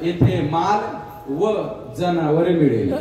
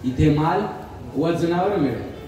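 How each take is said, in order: First: There is a break after va before janavar. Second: The word vajanavar is said without a break. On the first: Goods and animals are available here. The speaker calls it wrong. "वाचणारा वाचायचा" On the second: Goods are sold by weight here. The speaker calls it right. "दुकानदाराने दुकानावर लिहिलं होतं ना"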